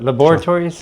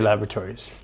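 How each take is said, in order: First: It is said with a British pronunciation. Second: It is said with a North American pronunciation. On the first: This is the required form for the name. "you have to do it the English way" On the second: This is how the speaker normally says it. "I would say laboratories"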